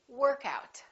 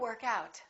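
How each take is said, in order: First: The stress falls on work. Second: The stress falls on out. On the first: It is a noun naming an exercise session. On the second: It is a verb meaning to exercise.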